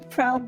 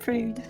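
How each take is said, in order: First: The word is said in his normal accent. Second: The word is said in an Australian accent.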